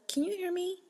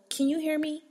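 First: Firm calm clerk. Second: Calm clerk demo. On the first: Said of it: "hit you with the". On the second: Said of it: "hit them with the". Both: Shown as a demonstration.

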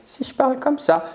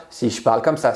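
First: Much higher tone; high-pitched demo voice. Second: Said in the usual way. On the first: Shown as a demonstration. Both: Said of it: "c'est le ton".

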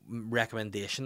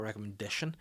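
First: "Recommendation" with stress on the -men- syllable; wrong pronunciation. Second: "recommendation" said lightly and quickly; "recommendation" said quietly, final syllable short; correct pronunciation. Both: Shown as a demonstration. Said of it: "not recommendation".

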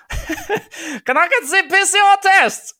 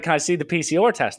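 First: High, slow, laughing mock German accent. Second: Said in the usual way. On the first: Agent at the gate asking for the test, laughing mock German accent. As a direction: ham up a German accent, cracking up. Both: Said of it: "she wasn't German, for the record".

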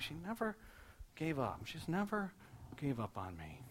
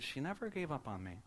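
First: Hushed retelling, pausing before each GAVE; struck by realisation. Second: Soft, wondering retold quote; hushed retelling in one unbroken phrase; struck by realisation. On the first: Retold or imitated. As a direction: break it into pieces, as if it is sinking in. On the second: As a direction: say it softly, as if it just struck you. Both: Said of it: "like it struck him as he said it".

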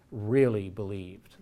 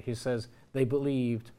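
First: Really believed, said slowly and weighted; slow stress on really. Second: Said in the usual way. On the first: Shown as a demonstration. Lecturer stressing really believed to the audience. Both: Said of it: "he doesn't just say they believed".

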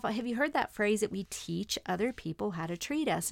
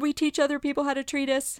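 First: Said in the usual way. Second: Crying voice. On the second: Retold or imitated. Repeating the phrase to her husband, crying. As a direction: cry out the phrase in anguish. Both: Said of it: "so back to my crying".

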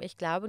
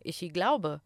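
First: Said in the usual way. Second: "Ichi glaube" with an extra i after ich; imitated learner pronunciation. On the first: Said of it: "an die Tafel geschrieben". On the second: Quoting students of German, "Ichi glaube" with an added vowel. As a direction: slip a little i into "Ichi glaube". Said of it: "ihr macht da ein kleines I".

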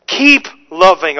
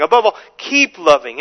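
First: Said in the usual way. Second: "keep" said with weight, the rest of the line plain; stress on keep. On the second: Shown as a demonstration. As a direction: lean on the word keep in "keep loving". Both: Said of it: "Emphasis on keep".

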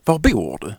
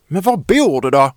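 First: Said in the usual way. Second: Louder, higher shouted question; angry yell. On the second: Acted. Child yells at silent Victoria, angry. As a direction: yell it in frustration. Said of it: "skriker jag".

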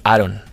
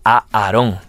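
First: "Aaron" with the stress on the first syllable; American version of name. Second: "A Aarón" with a long opening A, stress on the final "ón"; double A, accented O. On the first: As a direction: say "Aaron" the gringo way, stressed up front. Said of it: "la versión americana, la versión gringa". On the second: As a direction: draw out the A, then land on "rón". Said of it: "el mío es con dos A's y tilde en la O". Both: Shown as a demonstration.

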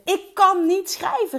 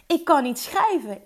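First: Louder, higher, drawn-out exclamation; retold loud cry. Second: Mildly raised, insistent voice; retold loud declaration. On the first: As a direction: call it out loud, stretching the words. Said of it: "riep ik heel hard". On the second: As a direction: state it firmly, a little louder. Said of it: "dat ik keihard uitsprak".

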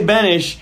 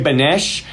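First: "Benish" said with a short i in the second syllable, BEN-ish; host's own way of saying "Benish"; own pronunciation. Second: "Benesh" said with an eh in the second syllable, BEN-esh; other people's pronunciation. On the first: Host shows how he says the guest's surname, as BEN-ish. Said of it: "see, I say Benish". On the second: Host imitates how others say the surname, as BEN-esh. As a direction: contrast it as "Benesh", rhyming the end with mesh. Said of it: "other people say Benesh". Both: Shown as a demonstration.

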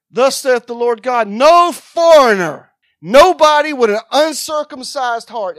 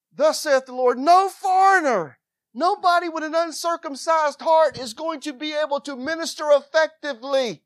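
First: Scripture read out at a scream, much louder. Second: Same verse, less loud, stretching "no foreigner"; calmer reading. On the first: Preacher reading the verse to the church, screamed. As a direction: blast the verse at the congregation. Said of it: "Am I screaming at y'all?". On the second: Preacher rereading the verse after apologizing, toned down. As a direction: read it again, reined in but still emphatic. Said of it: "I'm not trying to scream at you". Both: Acted.

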